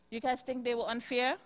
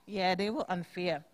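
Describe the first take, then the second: First: "unfair?" rising as a quick question; asking. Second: "unfair." falling, lower and softer; answering. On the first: Teacher quizzes children. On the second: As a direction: settle it, dropping on "unfair.". Teacher answers own question. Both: Real, not acted.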